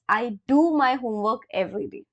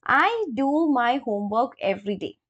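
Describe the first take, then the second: First: "do" pushed forward as the strongest word in "I do my homework every day"; stress on do. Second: Said in the usual way. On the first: Shown as a demonstration. Teacher demonstrating emphatic "do" to English learners. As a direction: lean on "do" to show emphasis. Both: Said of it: "It's an emphasize".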